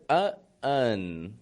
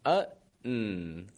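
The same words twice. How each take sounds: First: A small vowel sound comes before the final N. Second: The ending is a straight N sound. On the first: The speaker calls it wrong. "You added a little bit of a vowel sound in there" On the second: The speaker calls it right. "Just a straight N sound at the ending"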